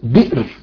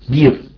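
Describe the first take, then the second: First: The word is said with a glottal stop. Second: The word is said without a glottal stop. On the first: "بالهمزة" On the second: "بعض القبائل يقولون مثلا بير"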